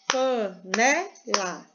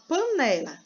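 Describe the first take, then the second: First: "Panela" slowly split into pa, ne, la; syllable by syllable. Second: Said in the usual way. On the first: Shown as a demonstration. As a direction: stretch and separate all three syllables of "Panela". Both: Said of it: "Panela tem quantas sílabas?".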